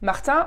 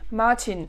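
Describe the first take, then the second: First: The name is pronounced the French way. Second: The name is pronounced the German way.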